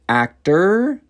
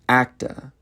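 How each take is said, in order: First: The final R sound is pronounced. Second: The final R sound is dropped.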